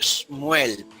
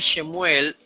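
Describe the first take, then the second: First: No vowel follows the first consonant. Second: A short vowel follows the first consonant. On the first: "no se pronuncia el vocal, el se Sheba" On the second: "no se lee Shemuel"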